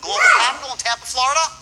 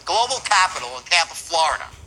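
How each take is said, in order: First: The voice rises at the end of the phrase. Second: The voice falls at the end of the phrase. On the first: It implies the listener should already know this. The speaker calls it right. "Up my voice at the end. Watch this" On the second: It only gives the listener some information. The speaker calls it wrong. "Downbeat. That's called a declarative"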